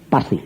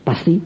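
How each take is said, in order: First: PASTI dropped lower as a statement; assuring answer. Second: PASTI lifted in a rising question. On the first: Preacher assuring the banker, settled low Pasti. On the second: Banker seeking assurance from preacher, questioning rise on Pasti. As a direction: ask "Pasti" with the pitch going up. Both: Retold or imitated.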